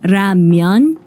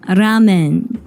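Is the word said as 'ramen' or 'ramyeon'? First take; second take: ramyeon; ramen. First: The word is said with a y glide, ra-myeon. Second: The word is said with two syllables, ra-men. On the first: This is the Korean form of the word. "in Korean it's ramyeon" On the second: This is the Japanese form of the word. "in Japanese it is ramen"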